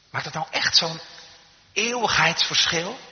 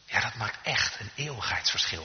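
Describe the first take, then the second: First: High, rising doubtful question, slowing on the last word; incredulous question. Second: Settled falling statement; firm answer. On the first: Retold or imitated. Doubters asking if it makes an eternal difference, incredulous. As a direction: question it, stretching out "eeuwigheidsverschil". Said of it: "Soms zijn de mensen die zeggen". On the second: Real, not acted. Preacher answering doubters about eternal difference, firm. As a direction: affirm it soberly, weight on "echt".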